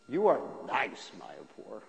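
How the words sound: It is said sarcastically, meaning the opposite.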